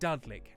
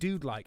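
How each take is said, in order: First: The first vowel sounds like in crud. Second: The first vowel sounds like in dude. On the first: "as in crud and crudding" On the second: "as in like a dude, dude-esque"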